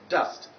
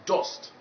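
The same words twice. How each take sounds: First: The vowel is the target vowel sound. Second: The vowel is a different vowel sound. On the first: The speaker calls it right. "but dust" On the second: The speaker calls it wrong. "not dust"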